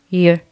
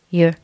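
The two takes are said the same way.

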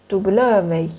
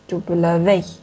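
First: The stress is on the middle syllable. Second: The stress is on the last syllable.

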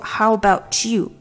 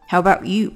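First: The t blends into 'you' as one linked sound. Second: The t is barely released before 'you'. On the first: "about 的t 和you 变成一个连读about you" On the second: "but 的这个t 没有太出来"

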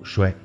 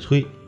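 First: The syllable is pronounced shuai. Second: The syllable is pronounced cui. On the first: This is the everyday reading found in dictionaries. "不读衰" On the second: This is the special poetic reading that keeps the rhyme. "最后一个字念催"

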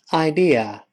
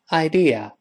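No difference in how they are said.

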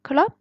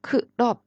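First: It is said with a rising, questioning tone. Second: It is said as a plain statement.

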